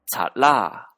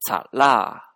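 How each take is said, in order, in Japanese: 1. 最後のtはlのような音としてつながります。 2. 最後のtはlのような音としてつながります。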